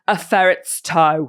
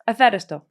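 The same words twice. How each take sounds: First: Every word is pronounced carefully and distinctly. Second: It is said quickly and casually, thrown away.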